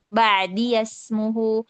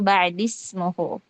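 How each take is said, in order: First: A voiced 'ya' sound links the two words. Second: No 'ya' sound is heard between the words. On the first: This is one traditional reading of the verse. "membaca ya idhafahnya itu dengan fathah" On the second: This is the other traditional reading of the verse. "Imam Hafs itu membaca dengan sukun"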